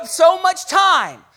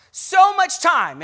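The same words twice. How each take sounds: First: "so much time" slow and loud, leaning on "time"; drawn-out loud "time"; stress on time. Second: "so much time" slow and loud, hitting "so" hardest; weighted "so" in a slow loud line; stress on so. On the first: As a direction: stretch out "time" and let it fall. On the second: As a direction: punch "so", then let it fall. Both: Acted.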